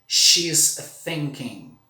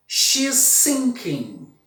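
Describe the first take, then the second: First: "thinking" with the tongue between the teeth. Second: "sinking" with a plain hissed S; "She's sinking" says S, tongue behind teeth. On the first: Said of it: "Ela está pensando". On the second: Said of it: "Ela está afundando". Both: Shown as a demonstration.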